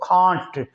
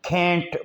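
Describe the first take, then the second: First: The vowel is a long open 'ah' sound. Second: The vowel is a short flat 'a' sound. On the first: "British English में इसको कांट बोलते हैं" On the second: "American कैंट बोलते हैं"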